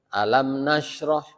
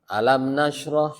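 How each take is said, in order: Both takes have the same delivery.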